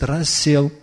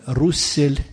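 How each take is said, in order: First: The first vowel is an 'a' sound. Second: The first vowel is an 'oo' sound. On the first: The speaker calls it right. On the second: The speaker calls it wrong.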